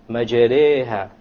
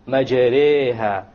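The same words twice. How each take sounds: The two takes are said the same way.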